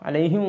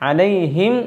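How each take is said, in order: First: The final m sound is dropped. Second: The final m sound is clearly pronounced. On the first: The speaker calls it wrong. "മീമ് പറയാതെ" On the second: The speaker calls it right. "ഇങ്ങനെയാണ് ഉച്ചരിക്കേണ്ടത്"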